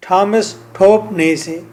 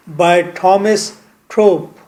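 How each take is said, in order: First: Said in the usual way. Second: Slow, careful stress on थोप, falling at the end; slow emphatic name. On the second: Shown as a demonstration. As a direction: spell out "Thomas थोप" slowly, leaning on थोप. ("थोप" पर ज़ोर देकर धीरे से)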